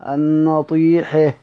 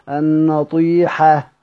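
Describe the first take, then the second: No difference in how they are said.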